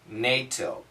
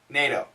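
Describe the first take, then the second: First: The word is said slowly and carefully. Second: The word is said quickly. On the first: "The American pronunciation is NATO" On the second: "when we say it fast"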